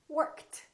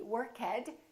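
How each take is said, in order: First: The ending is a t sound. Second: The ending is not a t sound. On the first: The speaker calls it right. "It's going to be T" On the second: The speaker calls it wrong. "the past tense of work is not going to be worked"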